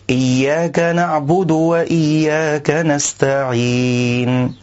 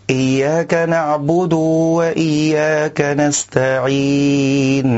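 First: "نعبد" with a short u, moving straight on to "وإياك"; the correct "نعبد"; clean short damma. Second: "نعبد" with the dal's u drawn out into a waw; the wrong, long "نعبد"; stretched damma. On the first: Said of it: "والصواب أن يخلص القارئ ضم الدال". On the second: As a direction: overextend the u after the dal of "نعبد". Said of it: "إشباع حركة الضمة في حرف الدال". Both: Shown as a demonstration.

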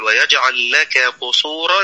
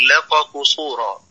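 First: Said in the usual way. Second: لك said as laqa before قصورا; kaf turned qaf. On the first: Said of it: "بدلا من أن يقول". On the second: Shown as a demonstration. Teacher imitating a common recitation slip, kaf turned qaf. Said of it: "فيحول الكاف".

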